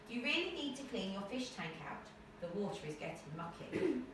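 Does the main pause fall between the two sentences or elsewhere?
between sentences. The main pause falls between the two sentences. The speaker calls it right. "Alright, that sounds good"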